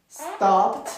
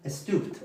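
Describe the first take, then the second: First: STOPPED with a short open O, crisp PT ending; short-vowel pronunciation. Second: STOOPED with a long OO vowel; altered vowel sound. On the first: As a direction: say "Stopped" with the short O kept, higher. ("Stopped" con O corta y abierta) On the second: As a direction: say "stooped", the O turned into OO. ("stooped" con sonido de U larga) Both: Shown as a demonstration. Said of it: "si no estuviera esa P ahí, sería".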